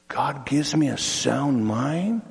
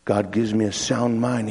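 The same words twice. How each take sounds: First: "mind" drawn out with a rising tune; wondering question. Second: Said in the usual way. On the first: Acted. Man pondering the scripture he heard, slow wondering question. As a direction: slowly question it, lifting on "mind".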